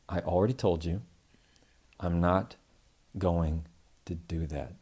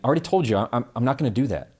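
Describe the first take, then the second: First: It sounds slow, steady and confident. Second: It sounds hesitant, hurried and stumbling.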